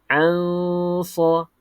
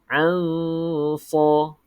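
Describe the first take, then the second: The two takes are said the same way.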